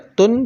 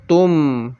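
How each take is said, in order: First: The syllable ends with an n sound. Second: The syllable ends with an m sound. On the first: The speaker calls it wrong. "tidak dibaca tun" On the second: The speaker calls it right. "tetapi dibaca tum"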